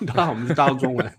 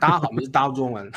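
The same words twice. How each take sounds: First: Said in the usual way. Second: Slurred fast Taiwanese. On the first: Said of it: "same phrase redone, laughing". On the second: Shown as a demonstration. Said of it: "台湾国语很黏哦".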